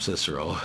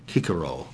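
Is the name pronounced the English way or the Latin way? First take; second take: English; Latin. First: The name is given an English pronunciation. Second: The name is given a Latin pronunciation. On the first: "but we'll call him Cicero, okay. Like we do in English" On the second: "I think probably in Latin they would have pronounced it back then"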